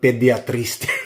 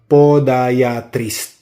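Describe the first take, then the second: First: The first syllable sounds like pe. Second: The first syllable sounds like po. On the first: The speaker calls it wrong. "Ako naman, ... Mali" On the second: The speaker calls it right. "That's the right pronunciation"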